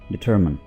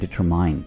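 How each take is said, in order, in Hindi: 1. शब्द 'min' की आवाज़ से खत्म होता है। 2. शब्द 'mine' की आवाज़ से खत्म होता है। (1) "इसको आप बोलेंगे डिटरमिन" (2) "डिटरमाइन बिल्कुल गलत"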